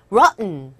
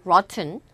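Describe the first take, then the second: First: First ROTTEN with the T swallowed into N. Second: ROTTEN with the T clearly released; pronounced T. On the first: Teacher recapping the native form, ROTTEN without audible T. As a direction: stop ROTTEN short and finish on a nasal N. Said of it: "트 발음이 안 들리고요". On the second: Teacher giving the acceptable alternative, ROTTEN with a clear T. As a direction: say ROTTEN as rot-ten, T sounded. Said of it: "rotten 해도 틀린 발음은 절대 아니거든요". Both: Shown as a demonstration.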